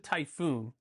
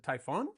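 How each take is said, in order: First: The last syllable has a long oo vowel. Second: The last syllable has a short o vowel. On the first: The speaker calls it wrong. "I don't think that's how you say it" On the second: The speaker calls it right. "I think it's the Typhon"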